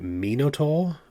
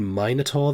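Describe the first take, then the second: First: It uses a pronunciation closer to Greek. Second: It uses the usual American pronunciation. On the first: "that is actually closer to the original Greek" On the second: "just saying Minotaur there felt weird"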